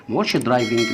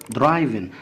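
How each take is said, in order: First: "درايفنج" said with a hard g sound at the end; wrong pronunciation shown. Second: "درايفن" ending on a clean n, no g sound; correct pronunciation. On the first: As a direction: show the mistake by sounding the g in "درايفنج". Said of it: "لا درايفن". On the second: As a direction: model "درايفن" with a silent final g. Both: Shown as a demonstration.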